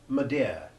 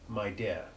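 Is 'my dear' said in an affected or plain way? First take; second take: affected; plain. First: It is said with an affected, upper-class pronunciation. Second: It is said with a plain, ordinary pronunciation. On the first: "affected aristocratic pronunciation" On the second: "instead of"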